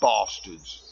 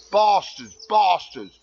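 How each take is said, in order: First: Said in the usual way. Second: Higher, louder bastards, hammed up; mock outraged shout. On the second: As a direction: shout it in fake indignation at the firemen.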